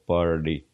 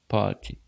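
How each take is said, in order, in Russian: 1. Произносится с американским акцентом. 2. Произносится с британским акцентом. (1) "как обычно говорят американцы... звучит более как-то звонко" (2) "Если бы я был английским лордом, я бы говорил party"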